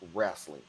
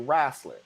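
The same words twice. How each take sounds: First: The word is said in a non-Southern way. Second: The word is said in a Southern way. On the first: This is how someone else says it. "I don't say wrestling" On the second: This is how people from the South say it. "I say wrestling. I'm from the South"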